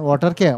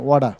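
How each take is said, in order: First: Said in the usual way. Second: American accent. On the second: Shown as a demonstration. Teacher showing students how Americans say it, American accent. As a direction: say "ওয়াডা" the American way, t flapped to d. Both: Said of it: "আর আমেরিকানরা বলে কি জানেন?".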